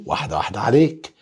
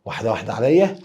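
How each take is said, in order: First: "واحدة واحدة عليك" rattled off fast, ignoring the plea; teasing fast. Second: Said in the usual way. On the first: Shown as a demonstration. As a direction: rush the words to tease the student. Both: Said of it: "حاضر".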